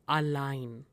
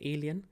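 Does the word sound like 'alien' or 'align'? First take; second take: align; alien. First: It is said like the English word align. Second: It is said like the English word alien. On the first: The speaker calls it right. "This is align" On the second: The speaker calls it wrong. "Some students pronounce it as alien"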